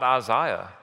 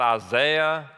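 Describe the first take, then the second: First: The name is said with a British pronunciation. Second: The name is said with an American pronunciation. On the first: The speaker calls it right. "There, they talk about Isaiah. They invented English" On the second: The speaker calls it wrong. "I know y'all talk about Isaiah"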